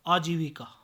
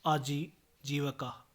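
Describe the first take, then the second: First: Said in the usual way. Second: आजीविका with short a after v; mispronunciation. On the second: Shown as a demonstration. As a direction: say aaji-va-ka for आजीविका. (आजीविका को आजीवका बोलें) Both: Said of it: "आजीविका नहीं".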